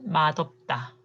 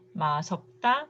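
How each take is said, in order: First: The middle consonant is a d sound. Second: The middle consonant is an s sound. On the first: The speaker calls it right. "맛없다 is correct" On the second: The speaker calls it wrong. "So first one"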